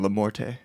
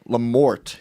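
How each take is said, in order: First: The name ends with an added vowel sound. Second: The name ends in a plain consonant sound. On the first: This is a fancier pronunciation people make up. "the elevator version" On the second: This is the family's own plain pronunciation. "you said that right"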